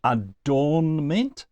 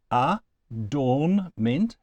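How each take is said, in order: First: Said in the usual way. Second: "adornment" slowly in three beats, A, DORN, MENT; split into syllables. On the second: Shown as a demonstration. Teacher showing students three syllables, slowly pulled apart. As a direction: separate each syllable of "adornment" with a small gap. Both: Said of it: "has three syllables".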